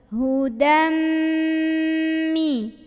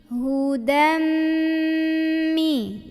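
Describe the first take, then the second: Both takes have the same delivery.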